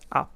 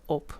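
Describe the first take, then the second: First: The vowel sounds more like an a. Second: The vowel is the speaker's own northern one. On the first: "They say more like an A" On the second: "I like the way we say it personally"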